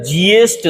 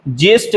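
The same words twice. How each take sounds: First: ज्येष्ठ with a clear y glide, jyesth; correct pronunciation. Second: ज्येष्ठ without the y, jesth; wrong pronunciation. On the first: Teacher giving the right word, ज्येष्ठ said as jyesth. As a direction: say ज्येष्ठ as ji-yesth. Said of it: "सही है". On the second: Teacher showing the wrong word, ज्येष्ठ said as jesth. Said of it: "गलत है". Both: Shown as a demonstration.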